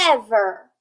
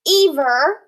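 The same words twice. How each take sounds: First: The first vowel sounds short. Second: The first vowel sounds long. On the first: The speaker calls it right. "it's ever" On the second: The speaker calls it wrong.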